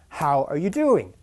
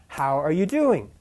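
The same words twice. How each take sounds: Both takes have the same delivery.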